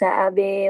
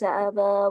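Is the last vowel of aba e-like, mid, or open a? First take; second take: e-like; open a. First: The final vowel is bent strongly toward e. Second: The final vowel is a fully open a. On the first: "untuk kalimat aba dia membaca imalah" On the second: "fathah di kalimat aba"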